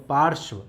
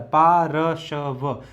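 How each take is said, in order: First: पार्श्व said as one smooth word with र before श्व; whole word said plainly. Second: पा, र, श, व each said apart with pauses; syllable by syllable. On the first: Teacher showing students how पार्श्व is spoken whole. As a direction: blend पार्श्व together in one go. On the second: Teacher sounding out पार्श्व piece by piece for students. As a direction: split पार्श्व into पा, र, श, व. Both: Shown as a demonstration. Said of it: "इस प्रकार से इसको बोला जाता है".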